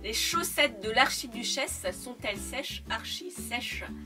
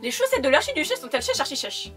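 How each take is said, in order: First: The sentence is said slowly and carefully. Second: The sentence is said quickly and hurriedly. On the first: "là je le dis doucement pour vous montrer la phrase" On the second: "faut le prononcer vite"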